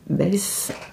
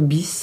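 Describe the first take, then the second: First: The vowel sounds like the e in bed. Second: The vowel sounds like the ee in bee. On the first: "bien prononcé, Bess Maquillage" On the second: "Ou peut-être Bis, hein, puisque ça s'écrit B Y S"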